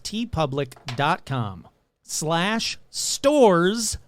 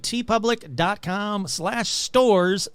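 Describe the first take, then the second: First: The address is said slowly and carefully. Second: The address is said very quickly. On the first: "Let me slow that down" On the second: "I know I say that really fast"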